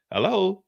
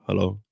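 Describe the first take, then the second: First: Said in the usual way. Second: Much lower, smooth seductive hello; put-on sexy voice. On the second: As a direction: drop it low to charm her. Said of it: "his sexy voice on".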